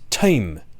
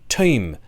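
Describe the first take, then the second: First: The vowel glides as a diphthong. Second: The same.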